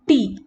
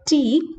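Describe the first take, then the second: First: The t is made with the tongue tip curled. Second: The t is made without curling the tongue. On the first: "some of us call it T" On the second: "instead of T"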